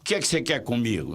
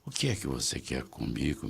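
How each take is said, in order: First: It is spoken in a young adult's voice. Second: It is spoken in an elderly person's voice. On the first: A young parent is speaking. "se for o pai e a mãe de vinte e cinco anos" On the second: A grandfather is speaking. "Se for o avô, já não é assim"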